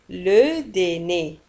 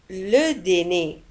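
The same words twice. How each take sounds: The two takes are said the same way.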